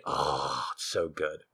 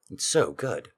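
First: Softer, lingering on so; savoring murmur. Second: Said in the usual way. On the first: Real, not acted. Host savoring remembered sauce, soft murmur. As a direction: let it fall soft, savoring the taste.

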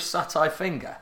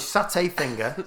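First: "satay" ending like "eye". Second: "satay" ending like "hay". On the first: Retold or imitated. Co-host querying his friend's word, "satay" as sat-eye. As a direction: say "satay" with an -eye last syllable. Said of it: "I've noticed that". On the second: Real, not acted. Co-host repeating it his own way, "satay" as sat-ay. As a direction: say "satay" with an -ay last syllable. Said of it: "you say satay".

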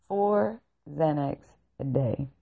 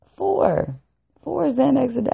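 First: Said in the usual way. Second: Four pitched way up, emphatic and incredulous; stress on Four. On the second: Real, not acted. Repeating the psychiatrist's dose in disbelief, Four stressed high. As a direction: punch Four high, as if unbelievable.

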